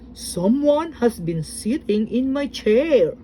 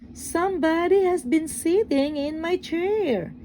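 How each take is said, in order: First: It is said in a great big, deep voice. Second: It is said in a middle-sized, medium voice.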